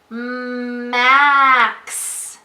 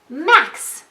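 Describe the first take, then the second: First: The word is stretched out slowly, sound by sound. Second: The word is said quickly as one whole. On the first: "Let's try it again slowly" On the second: "Now let's say it fast"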